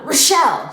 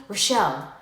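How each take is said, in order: First: Louder, higher retold yell; yelled name. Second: Said in the usual way. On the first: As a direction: call the name out sharply to wake someone. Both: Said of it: "and then yells my name louder".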